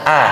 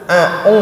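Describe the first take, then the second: First: The vowel stays a clear, pure a. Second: The vowel glides from a toward u. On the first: The speaker calls it right. "A-nya harus jelas" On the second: The speaker calls it wrong. "A-nya itu jadi A-u, nah ini nggak boleh"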